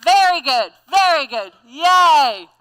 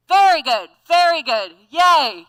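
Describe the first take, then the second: First: Loud cheering with the group. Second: Bright, loud cheering. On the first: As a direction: cheer along with everyone. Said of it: "Can y'all do it with me". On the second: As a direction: cheer the group on. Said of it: "change the exercise by going". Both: Shown as a demonstration.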